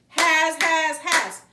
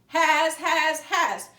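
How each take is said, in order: Both takes have the same delivery.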